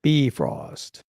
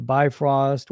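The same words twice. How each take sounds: First: Lower, slow BEE-frost for "Bifrost". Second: "Bifrost" pronounced BY-frost; Bifrost as bye-frost. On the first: Shown as a demonstration. Host repeating the corrected name, Bifrost said BEE-frost. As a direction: repeat Bifrost with "ee" in the first syllable. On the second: Real, not acted. Host wishing for a crypto wallet, Bifrost said BY-frost. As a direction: say Bifrost with a long "eye" in the first syllable. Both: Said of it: "It's pronounced Bifrost".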